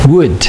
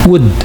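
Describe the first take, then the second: Both takes have the same delivery.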